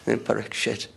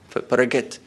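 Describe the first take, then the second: First: The middle consonants sound like 'ksh'. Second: The middle consonants sound like 'kh'.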